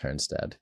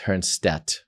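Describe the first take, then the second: First: The name ends with a D sound. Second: The name ends with a T sound. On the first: This is how it is said in America. "here I am in America for most of my life, and it's Hernstad" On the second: This is how it was said in South Africa. "in South Africa, it was pronounced Hernstedt because the D is really kind of pronounced as a T"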